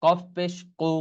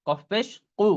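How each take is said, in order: First: Said in the usual way. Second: কু said with a deep throaty qaf, not a plain k, pitched higher; deep qaf sound. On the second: Shown as a demonstration. Teacher corrects students to a deep throaty কু. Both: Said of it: "কফ পেশ কিন্তু কু না".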